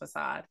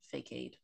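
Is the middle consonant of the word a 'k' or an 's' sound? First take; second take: s; k. First: The middle consonant is a soft s sound. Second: The middle consonant is a hard k sound. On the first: The speaker calls it right. "did not know the word was pronounced facade" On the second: The speaker calls it wrong. "I used to pronounce that word fakade. And I'm embarrassed"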